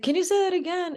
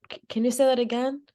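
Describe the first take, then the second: First: Much higher-pitched, pressing question; retold bewildered plea to repeat it; insistent repeat request. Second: Quick, higher-pitched puzzled question; mildly confused, retold request to repeat. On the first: Worker still unable to understand customer, high and bewildered. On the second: Worker not understanding customer's four numbers, mildly puzzled.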